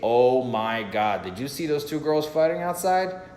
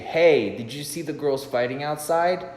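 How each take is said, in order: First: It sounds genuinely excited and surprised. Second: It sounds rehearsed and scripted.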